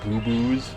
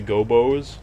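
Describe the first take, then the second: First: The first vowel sounds like 'oo'. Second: The first vowel sounds like 'oh'. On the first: The speaker calls it wrong. "as a kid, I always thought it said" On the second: The speaker calls it right. "the first one's called Croc, The Legend of the Gobos"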